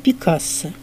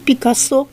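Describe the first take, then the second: First: The name is stressed the Spanish way. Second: The name is stressed the French way. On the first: "по-испански" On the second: "По-французски"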